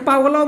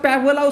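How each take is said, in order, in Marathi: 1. पहिला स्वर 'father' मधील 'a' सारखा वाजतो. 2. पहिला स्वर 'cat' मधील 'a' सारखा वाजतो. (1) "पा पण असते" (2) "पॅ पण असतंय"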